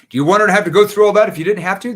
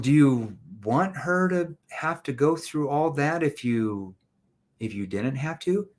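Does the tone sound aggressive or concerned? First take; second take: aggressive; concerned. First: It is said in a mean, aggressive tone. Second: It is said in a gentle, concerned tone. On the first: The speaker is pressuring the person. The speaker calls it wrong. "That's mean. That's aggressive" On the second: The speaker cares about the person's situation. The speaker calls it right. "Did you hear my tone?"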